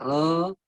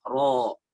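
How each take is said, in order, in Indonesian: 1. O ringan biasa, cuma bibir dibulatkan. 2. O berat, bergema di dalam mulut. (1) "Jadi Indonesia ro" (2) "isti'la ro"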